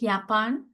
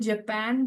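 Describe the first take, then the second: First: The word has the German pronunciation. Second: The word has the English pronunciation. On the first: "but we call it Japan" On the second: "the spelling is Japan"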